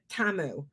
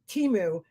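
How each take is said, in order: First: The first vowel sounds like 'ah'. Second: The first vowel sounds like 'ee'. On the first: This is one person's odd way of saying it. The speaker calls it wrong. "Laura's got to pronounce it Tamu" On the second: This is how most people say it. The speaker calls it right. "Everybody in the fucking free world says Timu"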